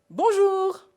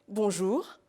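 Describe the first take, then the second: First: It is said at a high pitch. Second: It is said at a medium pitch.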